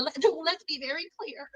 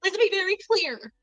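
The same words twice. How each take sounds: First: Laughing through the words; cracking up mid-line. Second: Higher, put-on Kamala cadence; Kamala impression. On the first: Real, not acted. Vlogger laughing at her own Kamala reference. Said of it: "like, like Kamala". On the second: Vlogger mimicking Kamala to a critic, mock formal. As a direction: do a mock Kamala Harris line. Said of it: "like Kamala".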